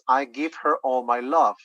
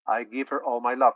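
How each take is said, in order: First: The h sound in her is pronounced. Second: The h sound in her is dropped. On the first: "the letter says" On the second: "this letter H sound disappears"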